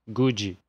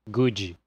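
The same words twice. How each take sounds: No difference in how they are said.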